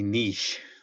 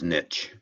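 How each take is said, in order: First: The word is said with a French-style pronunciation. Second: The word is said rhyming with itch. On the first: "it should be niche. I think it's French" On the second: "the way I'm used to hearing it, wrong or not"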